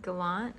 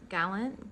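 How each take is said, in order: First: "Gallant" said guh-LAHNT, stress on the second syllable, final t sounded; second try at the name. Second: "Gallant" said GAL-en, stress on the first syllable, final t dropped; first try at the name. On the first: Vlogger retries the YouTuber's surname as guh-LAHNT, stress on the end. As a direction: switch "Gallant" to guh-LAHNT, ending on a light rise. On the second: Vlogger tests a YouTuber's surname, GAL-en with a questioning rise. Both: Shown as a demonstration. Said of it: "I'm not sure how she pronounces her name".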